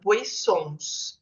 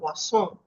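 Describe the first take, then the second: First: Every written letter is pronounced, Portuguese style. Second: Final letters are dropped, French style. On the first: "a gente lê em português a palavra" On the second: "lá na França eles falam"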